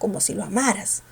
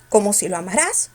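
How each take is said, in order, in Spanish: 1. La tónica cae en la sílaba 'ma'. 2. La sílaba 'ma' no es la tónica. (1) "Mayor fuerza ¿dónde? En la sílaba ma" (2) "pero tú dices"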